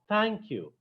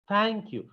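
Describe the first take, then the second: No difference in how they are said.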